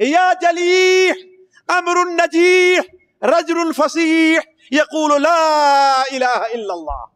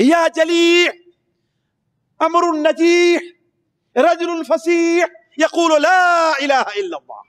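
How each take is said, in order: First: Slow, ringing mock call from the idol; loud call. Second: Slow raised chant of the words; loud call. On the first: Unseen voice calling out over the idol shrine, slow and raised. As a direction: call it out slowly, drawn out and raised. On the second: Retold or imitated. Preacher repeats the unseen voice to the crowd, raised. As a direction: proclaim it slowly and high. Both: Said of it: "کہا زور سے یہ آواز آئی".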